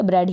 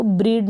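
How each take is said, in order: First: ब्रेड with an open e, "bred"; correct pronunciation. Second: ब्रीड with a long ee, "breed"; long-vowel mistake "breed"; wrong pronunciation. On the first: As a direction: say ब्रेड to rhyme with red. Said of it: "ब्रेड ही पढ़ेंगे". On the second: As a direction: misread ब्रीड to rhyme with need. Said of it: "इसको ब्रीड नहीं पढ़ेंगे". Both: Shown as a demonstration.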